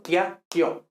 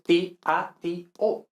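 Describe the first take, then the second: First: "tiatio" in two beats, TYA-tyo; diphthongs. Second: "tiatio" slowly as four beats, ti-a-ti-o; hiatus. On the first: Teacher shows what we are saying, two syllables. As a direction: glide i into the next vowel in "tiatio". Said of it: "eso estamos diciendo tiatio". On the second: Teacher gives the real form, four slow syllables. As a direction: separate every vowel in "tiatio". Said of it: "pero realmente es tiatio". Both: Shown as a demonstration.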